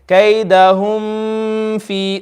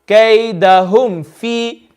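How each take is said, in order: First: The m is held with a long nasal hum. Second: The m is short, with no nasal hum. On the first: The speaker calls it wrong. "we are not going to read it like this" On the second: The speaker calls it right. "See how nice and clearly I read it"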